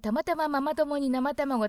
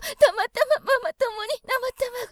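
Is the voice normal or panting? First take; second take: normal; panting. First: It is said in a normal, even voice. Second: It is said panting, with audible breaths.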